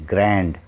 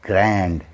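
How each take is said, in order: The two takes are said the same way.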